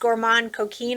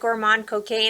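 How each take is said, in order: First: The last word ends like 'keen'. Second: The last word rhymes with 'cane'. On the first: The speaker calls it right. "It's Gourmand Coquine, I think is how you pronounce it" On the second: The speaker calls it wrong. "I always call it Gourmand Cocaine, and I'm like, no, that's not right"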